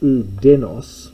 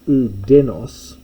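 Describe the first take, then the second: First: The middle consonant is a hard d sound. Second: The middle consonant is a hard d sound.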